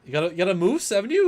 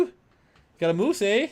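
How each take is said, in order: First: High, loud Canadian caricature ending as a question; mock Canadian accent. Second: Slow, high, loud Canadian caricature with "eh"; mock Canadian accent. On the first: Co-host prompting with a moose line, mock Canadian accent ending "haven't you". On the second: Co-host redoing his moose line, slow mock Canadian accent. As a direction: draw it out like a cartoon Canadian, eh. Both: Shown as a demonstration. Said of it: "do a Canadian accent".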